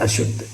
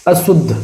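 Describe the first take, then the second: First: अशुद्ध said as "ashuddh"; correct "sh". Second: अशुद्ध said as "asuddh"; wrong "s". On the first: Teacher gives the right form, अशुद्ध with sh. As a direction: sound sh in अशुद्ध. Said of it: "इस तरह से लिखा जाता है". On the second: Teacher shows the mistake, अशुद्ध with s. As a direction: use a plain s in अशुद्ध. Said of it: "इस तरह से नहीं लिखा". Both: Shown as a demonstration.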